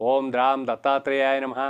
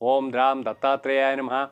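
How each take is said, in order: Both takes have the same delivery.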